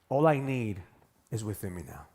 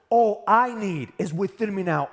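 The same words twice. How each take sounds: First: It is said flatly, without emotion. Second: It is said with strong emotion and energy.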